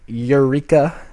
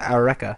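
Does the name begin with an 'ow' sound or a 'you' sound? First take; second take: you; ow. First: The name begins with a 'you' sound. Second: The name begins with an 'ow' sound. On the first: The speaker calls it wrong. "That's not how you pronounce it" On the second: The speaker calls it right. "You pronounce it Aureka"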